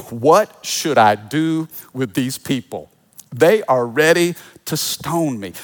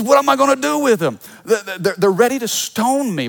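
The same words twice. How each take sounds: First: Said in the usual way. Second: High, fast, whiny plea, pitched up and hurried; exasperated leader venting about his people; Moses complaining. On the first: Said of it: "Then Moses cried out to the Lord". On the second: Retold or imitated. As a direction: play Moses throwing up his hands to God, fretful and quick. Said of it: "Moses starts complaining to God. He says".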